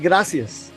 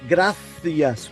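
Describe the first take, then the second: First: The c is pronounced with an s sound. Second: The c is pronounced with a th sound. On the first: "except in the southwest region of Spain" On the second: "The C has a T H sound"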